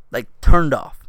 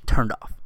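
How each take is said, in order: First: Turned punched louder, falling hard on off; loud stress on turned off. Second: Said in the usual way. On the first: Real, not acted. Repeating to his listeners, loud stress on turned.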